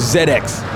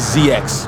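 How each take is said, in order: First: The letters are said the Canadian way. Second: The letters are said in a non-Canadian way.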